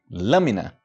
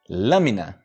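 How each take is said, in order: Both takes have the same delivery.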